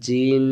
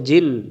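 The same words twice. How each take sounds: First: The final n is held with a long nasal hum. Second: The final n is cut short without nasal hum. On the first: The speaker calls it right. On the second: The speaker calls it wrong.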